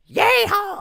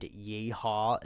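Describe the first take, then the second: First: Very loud, high yeehaw shout; full-throated high whoop; demonstrated scream. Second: Said in the usual way. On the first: Shown as a demonstration. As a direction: scream it out like a wild cowboy. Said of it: "as loud as I possibly could". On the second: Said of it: "and I screamed".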